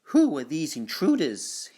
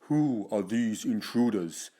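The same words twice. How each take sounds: First: It is said in a normal voice. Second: It is said in a slightly deep voice.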